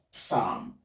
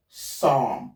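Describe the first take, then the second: First: "psalm" with a P popped before the S, "p-sahm"; sounded P. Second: "Psalm" said as "sahm", starting straight on the S; silent P. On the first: Teacher shows learners the mistake, P sounded in "psalm". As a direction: voice the P at the start of "psalm". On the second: Teacher models the word for learners, P silent in "Psalm". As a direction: drop the P in "Psalm". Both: Shown as a demonstration. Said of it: "not psalm".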